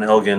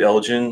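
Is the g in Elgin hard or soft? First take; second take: hard; soft. First: The g is a hard g sound. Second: The g is a soft j sound. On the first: This is the proper, traditional way. "is the the proper way" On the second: This is how some Americans say it. "more of that soft J sound"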